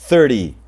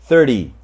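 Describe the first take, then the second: No difference in how they are said.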